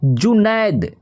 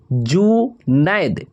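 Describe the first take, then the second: First: Said in the usual way. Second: Junaid stretched slow, syllable by syllable; slow dictation of Junaid; drawn out slowly. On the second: Shown as a demonstration. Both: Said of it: "और जुनैद का हो जाएगा".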